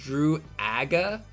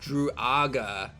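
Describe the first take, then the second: First: The 'a' vowel sounds like in 'apple'. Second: The 'a' vowel sounds like in 'otter'. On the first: "a as in apple" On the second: "as in otter"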